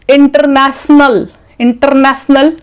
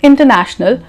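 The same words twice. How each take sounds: First: "International" with s for sh, "inter-nas-nal"; wrong pronunciation. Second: "international" with a clear sh in the middle; correct pronunciation. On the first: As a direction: say International with no sh sound. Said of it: "not the right pronunciation". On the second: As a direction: say international as "in-ta-na-shnal". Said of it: "It is". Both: Shown as a demonstration.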